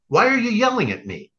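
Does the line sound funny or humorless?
funny. It is said in a casual, funny tone.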